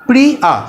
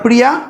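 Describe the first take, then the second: First: The word is broken into two separate parts. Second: The word is said smoothly without a break.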